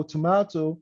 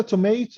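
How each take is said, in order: First: Tomato as "tuh-MAH-to"; British variant. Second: Tomato as "tuh-MAY-to"; American variant. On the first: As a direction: say tomato with the long AH vowel. (نطق tomato "توماتو") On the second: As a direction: say tomato with the AY vowel. (نطق tomato "توميتو") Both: Shown as a demonstration. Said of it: "هاي بسميها accent".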